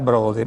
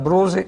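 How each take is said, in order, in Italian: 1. La parola ha un suono d prima della desinenza. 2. La parola ha un suono s prima della desinenza. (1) "loro dicevano broda, a tre chilometri di distanza" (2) "in dialetto veneto diciamo la brosetta, la, bros, la brosa"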